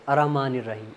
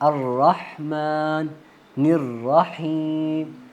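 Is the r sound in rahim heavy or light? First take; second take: light; heavy. First: The r is light and the h unclear. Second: The r is heavy and the h clear. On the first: The speaker calls it wrong. "जब हम गलती करते हैं ना तो हम इसको इस तरह पढ़ते हैं ... रा को हमने मोटा पढ़ना है, वो मोटा नहीं पढ़ रहे" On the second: The speaker calls it right. "रा को हमने मोटा पढ़ना है"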